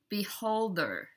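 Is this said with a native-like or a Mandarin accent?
native-like. It is said with a native-like English accent. The speaker calls it right. "is beholder"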